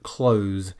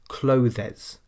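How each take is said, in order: First: The word is said with one syllable. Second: The word is said with two syllables. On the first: The speaker calls it right. "the most important sound in this word is the z at the end" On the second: The speaker calls it wrong. "The most common mistake people make is to pronounce it with two syllables"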